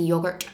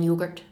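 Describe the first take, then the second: First: "yogurt" said the English way, with a short o; slightly anglified "yogurt"; anglicised pronunciation. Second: "yogurt" said the Scottish way, with a long o; local, un-English "yogurt"; non-anglicised pronunciation. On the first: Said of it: "things I say that are slightly anglified". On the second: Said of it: "rather than yogurt". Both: Shown as a demonstration.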